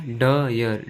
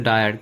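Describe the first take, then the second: First: "डयर" split as डा...यर; sounded-out word. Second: Said in the usual way. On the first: Shown as a demonstration. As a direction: draw out the first half of "डयर", then यर. ("डयर" को डा...यर खींचकर) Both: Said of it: "आई किसका sound देगा".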